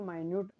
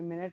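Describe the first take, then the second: First: The first syllable sounds like 'my'. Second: The first syllable sounds like 'min'. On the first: The speaker calls it right. "इसको माइन्यूट pronounce करते हैं" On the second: The speaker calls it wrong. "ये मिनट नहीं है"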